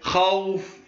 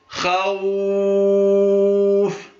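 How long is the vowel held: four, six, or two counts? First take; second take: two; six. First: The long vowel is held for two counts. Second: The long vowel is held for six counts.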